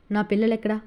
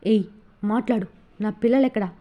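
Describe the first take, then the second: First: Said in the usual way. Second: A harsh demand with పిల్లలెక్కడా hit and falling; angry demand. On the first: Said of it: "అని అడిగాడు Vasu". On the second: A narrator's reading. Husband gripping wife's hair for the children, angry demand. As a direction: grab her and force the answer. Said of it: "Vasu కోపంగా".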